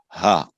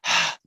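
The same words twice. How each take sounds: First: The h is voiced with the vocal cords vibrating. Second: The h is breathed without vocal cord vibration. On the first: The speaker calls it right. "it was a voiced, not a ha, but a ha" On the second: The speaker calls it wrong. "not a ha"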